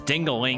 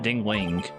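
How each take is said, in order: First: The name is said with three syllables. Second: The name is said with two syllables. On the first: The speaker calls it wrong. "I keep thinking it's Dingaling" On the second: The speaker calls it right. "not Dingling"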